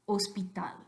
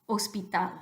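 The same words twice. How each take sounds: Both takes have the same delivery.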